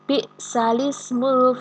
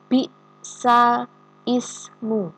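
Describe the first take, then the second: First: The glottal stop is dropped and the vowel moves back. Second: The glottal stop before ismu is clearly pronounced.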